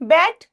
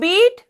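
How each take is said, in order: First: The vowel is a short 'e' sound. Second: The vowel is a long 'ee' sound. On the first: It is the past-tense form. "लेकिन जो इसका pronunciation है वो क्या हो जाएगा? बेट।" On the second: It is the present-tense form. "First form"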